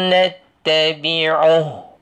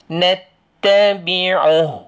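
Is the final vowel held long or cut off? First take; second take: cut off; cut off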